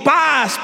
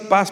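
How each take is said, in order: First: It is shouted loudly as a plea. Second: It is said quietly and dismissively.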